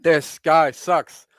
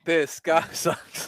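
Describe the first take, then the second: First: This guy sucks slowly, stress on guy; slow emphatic jeer. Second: Slow, breaking into a laugh mid-line; laughing jeer. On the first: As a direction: drag it out, leaning on guy. Repeated punchline, first take. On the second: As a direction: laugh through the insult. Repeated punchline, laughing through. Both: Pretend.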